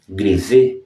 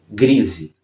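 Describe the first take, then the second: First: The stress is on the last syllable. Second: The stress is on the first syllable. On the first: A halftone effect in graphic reproduction. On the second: A grey wool fabric used in monastic habits.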